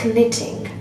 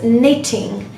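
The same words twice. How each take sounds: First: The word starts with a K sound before N. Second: The word starts with an N sound, no K. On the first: The speaker calls it wrong. "it's not knitting" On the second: The speaker calls it right. "there is no sound of K at all"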